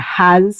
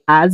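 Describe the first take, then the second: First: The word starts with a clear h sound. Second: The word starts without any h sound. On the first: "or has" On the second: "we say as"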